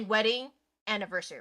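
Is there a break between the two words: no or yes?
yes. The two words are split apart by a pause. The speaker calls it wrong. "you wouldn't say wedding anniversary"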